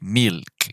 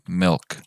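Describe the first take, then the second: First: The vowel is a tight, clear 'ee' sound. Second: The vowel blends an 'e' with a small 'i'. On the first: The speaker calls it wrong. "we don't want to say" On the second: The speaker calls it right. "Let me show you"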